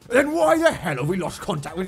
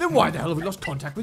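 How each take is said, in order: First: It is spoken imitating another person's voice. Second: It is spoken in the speaker's own voice. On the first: The speaker calls it wrong. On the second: The speaker calls it right.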